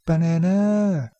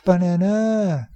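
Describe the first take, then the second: The two takes are said the same way.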